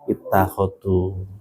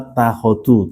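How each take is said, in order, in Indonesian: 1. Kata itu diawali dengan vokal 'i'. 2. Kata itu langsung dimulai dengan 't', tanpa vokal. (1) "kalau berdiri sendiri dibacanya itta ittakhadu" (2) "kalau dibaca waladina takhadu"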